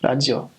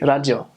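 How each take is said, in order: First: It is said with a Japanese R sound. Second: It is said with a Japanese R sound.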